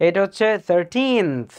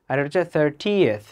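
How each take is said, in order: First: Put-on thirteenth slow, long stressed teen; thirteenth demo. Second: Thirtieth slow, stress on thir, short ieth; thirtieth demo. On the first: Teacher contrasting thirteenth with thirtieth: long teen. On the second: Teacher contrasting thirtieth with thirteenth: stress on thir. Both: Shown as a demonstration. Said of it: "Thirteenth নাকি thirtieth".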